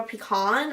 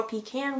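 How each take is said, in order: First: "Pecan" with an open AH ending, pee-KAHN; "Pecan" ending in a long ah, like "kahn". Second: "Pecan" with a flat A, like "pee can"; "Pecan" ending just like the word "can". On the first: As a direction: say "Pecan" to rhyme with "on". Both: Shown as a demonstration. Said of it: "whatever you call it".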